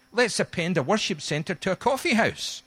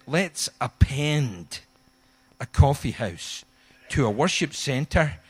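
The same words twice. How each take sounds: First: "coffee house" stressed at the end with a falling tune; reversed order, stress coffee. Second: "Let's append a coffee house" said slowly, stressing "coffee"; slow, weighty "Let's append"; original order, slow. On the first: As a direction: land hard on "coffee house". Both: Shown as a demonstration. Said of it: "He turned it upside down".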